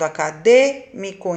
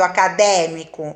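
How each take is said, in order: First: The stressed vowel is said with a closed sound. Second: The stressed vowel is said with an open sound. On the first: The speaker calls it right. "Eu tô falando acadêmico. Então, acento circunflexo" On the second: The speaker calls it wrong. "Não tô falando"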